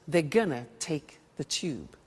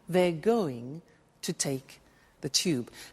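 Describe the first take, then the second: First: "Going to" is run together quickly as "gonna". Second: "Going to" is said fully and carefully.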